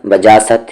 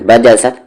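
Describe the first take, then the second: First: बजासत with the middle vowel wrongly drawn long; wrong stretched vowel. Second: बजसत with every vowel kept short; don't stretch the vowels of बजसत. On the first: Teacher showing the mistake to avoid, vowel drawn long. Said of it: "बजासत या बजसत नहीं". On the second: Teacher correcting a stretched vowel, short and clipped. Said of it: "हरकत को नहीं खींचना है". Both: Shown as a demonstration.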